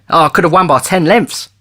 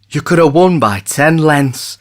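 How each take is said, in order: First: Bright, raised boast; boastful jockey. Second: In wonder. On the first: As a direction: brag about the win. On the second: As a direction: echo it in disbelief. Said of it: "repeated Maynard in wonder". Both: Acted.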